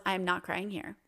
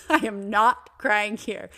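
First: Hushed, holding back tears; quiet inner resolve. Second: Slower and louder, insisting; firm self-command. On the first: To herself at the doctor's, quiet and holding it in. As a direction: say it under your breath to yourself. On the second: To herself fighting tears, slow firm insistence. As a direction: lean hard on each word to convince yourself. Inner thought repeated after laugh. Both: Retold or imitated.

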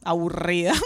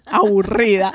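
First: Said in the usual way. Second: Slow, laughing drawn-out aburrida; laughing drawl. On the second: Retold or imitated. Telling the hosts how bored she felt, aburrida slowly drawn out laughing.

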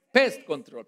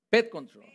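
First: "Pest" with the s clearly sounded; "Pest control" with a crisp s before the t; "Pest" fixed and said carefully; corrected pronunciation. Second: "Pet" said without the s sound; "Pet control" with the s dropped from pest; "Pet" as a slip for "pest"; mispronounced word. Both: Shown as a demonstration.

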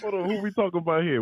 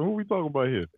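First: Said in the usual way. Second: A breathy, conspiratorial whispered question. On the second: Real, not acted. Host asking the co-host about D, in a whisper. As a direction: lean in and whisper it.

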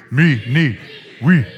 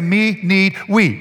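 First: Loud caveman chant in separate words. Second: Said in the usual way. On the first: Shown as a demonstration. Preacher leads congregation in chanting together, caveman voice. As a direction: say it like a caveman, word by word. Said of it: "In your best caveman voice". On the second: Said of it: "we're gonna say".

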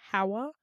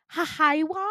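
First: "Hawa" in two syllables, HA-wa; plain two-beat "Hawa", slight questioning rise; correct name. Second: "Hahaiwa" as ha-HIGH-wa, high and loud; botched "Hahaiwa" with a stressed HIGH in the middle; mangled name. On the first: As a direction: say "Hawa" simply as HA-wuh. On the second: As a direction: stumble into an extra syllable on "Hahaiwa". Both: Retold or imitated. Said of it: "it's two syllables".

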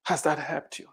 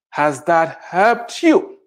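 First: Much softer, almost to yourself; quiet echo of the question; softer repeat. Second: Slow, drawn-out, challenging question; slow pointed question. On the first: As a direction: drop the level and let it sink in. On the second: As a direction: stretch it out and press the point. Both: Acted. Challenging the complainers.

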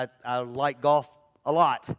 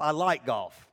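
First: "lot" leaned on with a falling close; I like golf a lot, weight on "lot"; stress on lot. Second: "like" hit firmly, "golf" falls away; I LIKE golf, not love; stress on like. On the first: Correcting himself to a stranger, stress on "lot". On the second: Pastor separating like from love, stress on "like". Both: Shown as a demonstration. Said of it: "I don't love golf".

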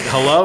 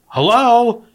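First: Said in the usual way. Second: High, louder puzzled hello; raised puzzled receptionist hello. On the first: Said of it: "And I was like". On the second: Retold or imitated. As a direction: pitch it up and push the hello. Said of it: "And she goes".

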